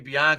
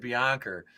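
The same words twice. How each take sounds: First: The name ends in a plain vowel. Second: The name ends with an added R sound. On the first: "I heard him say Bianca" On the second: "it sounded like he said Bianca"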